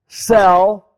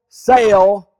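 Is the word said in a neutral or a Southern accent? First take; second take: neutral; Southern. First: The word is said in a neutral accent. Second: The word is said in a Southern accent.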